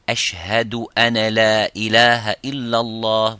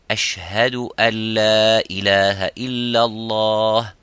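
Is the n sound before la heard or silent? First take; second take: heard; silent. First: The n is pronounced before the l. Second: The n merges silently into a doubled l. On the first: The speaker calls it wrong. "vous ne direz pas" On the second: The speaker calls it right. "vous direz"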